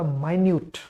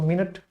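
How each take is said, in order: First: It is said like 'my-nyoot', with a long vowel. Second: It is said like 'min-it', with two short syllables. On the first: Something very small or fine. "दूसरा माइन्यूट। माइन्यूट का मतलब क्या, सूक्ष्म" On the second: A unit of time on a clock. "इसके दो उच्चारण, एक तो मिनट, जो घड़ी में होता है"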